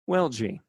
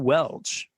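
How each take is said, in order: First: The name ends in a 'gee' syllable. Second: The name ends in a single 'ch' sound. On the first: The speaker calls it right. "it's pronounced Welgie" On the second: The speaker calls it wrong. "I totally screwed it up"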